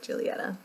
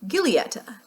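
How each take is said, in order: First: Giulietta with a soft "zh" start, "zhee-lee-etta"; Italian pronunciation. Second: Giulietta said with a hard G, "gih-lee-etta"; American pronunciation. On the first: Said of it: "it's actually pronounced like". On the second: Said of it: "In my American accent, I would pronounce this". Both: Shown as a demonstration.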